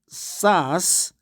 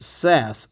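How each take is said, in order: First: It is pronounced the way Koreans say it. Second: It is pronounced the way Americans say it. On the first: "In Korea, we, we in inside K T we call it, we pronounce it SaaS" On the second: "but Americans pronounce it SaaS"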